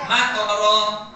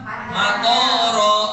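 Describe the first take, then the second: First: The middle vowel is held short. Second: The middle vowel is drawn out long. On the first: "Kalau yang pertama tonya dibaca pendek" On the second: "Kalau yang di bawah"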